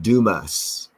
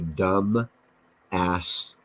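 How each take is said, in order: First: It is said the local way, as Dumas. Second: It is said like the words dumb ass. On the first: It is said the way the locals say it. "they call it Dumas" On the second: It is read the way it is spelled. "if you spelled it out, it's Dumbass"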